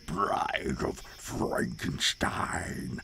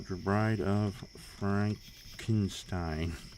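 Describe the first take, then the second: First: It is said in a Dracula impression. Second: It is said in a normal voice.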